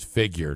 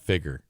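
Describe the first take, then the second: First: The word does not rhyme with 'bigger'. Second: The word rhymes with 'bigger'. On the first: The speaker calls it right. "the word is figure" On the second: The speaker calls it wrong.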